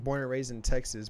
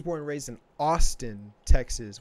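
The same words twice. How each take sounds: First: Said in the usual way. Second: "Austin" punched louder as the correction; stress on Austin. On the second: Real, not acted. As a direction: lean hard on "Austin", setting it apart. Corrects Texas to pointed Austin.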